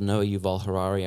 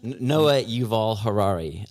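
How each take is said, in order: First: The name is said at a normal pace. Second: The name is said slowly and deliberately.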